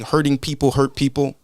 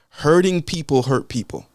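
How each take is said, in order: First: It is said at normal speed. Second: It is said slowly and deliberately.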